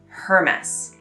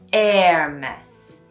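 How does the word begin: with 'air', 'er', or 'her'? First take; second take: her; air. First: It starts with a sounded H, like 'her'. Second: It starts with no H, like 'air'. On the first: The speaker calls it wrong. "often pronounced by English speakers like Hermes" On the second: The speaker calls it right. "pronounced more like the word air in English"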